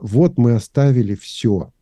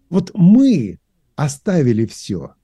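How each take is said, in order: First: The emphasis falls on the word все. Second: The emphasis falls on the word мы. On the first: The stress is on how much was given up. The speaker calls it wrong. "часто читают, вот мы оставили все, да, акцент на слово «все»" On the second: The stress is on who gave things up, in contrast to others. The speaker calls it right. "делайте, пожалуйста, акцент, когда читаете на слове «мы»"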